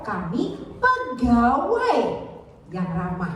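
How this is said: The stress falls on the word pegawai. Friendliness is stressed as part of the job. "artinya pegawai"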